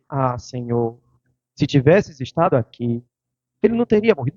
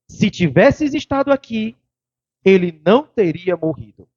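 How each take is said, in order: First: It is said in a soft, meek tone. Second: It is said in a strong, forceful tone.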